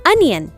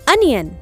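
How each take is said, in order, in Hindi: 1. पहला स्वर छोटी 'uh' ध्वनि है। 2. पहला स्वर छोटी 'uh' ध्वनि है।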